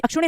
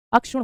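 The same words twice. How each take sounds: First: अक्षुण्य with an added "ne" ending; अक्षुण्य with an extra syllable at the end; wrong extended ending. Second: अक्षुण said "akshun", ending on n; अक्षुण with sh and no added syllable; corrected form. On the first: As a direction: say अक्षुण्य as "akshun-ne". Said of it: "sorry, अक्षुण्य नहीं होता". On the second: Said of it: "अक्षुण होता है". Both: Shown as a demonstration.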